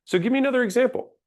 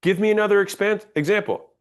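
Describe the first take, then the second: First: Fast, higher, a firm command with no question. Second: Command. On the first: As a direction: order it briskly, fast. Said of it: "that wasn't a question. That was a command". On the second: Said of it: "That was a command". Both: Shown as a demonstration.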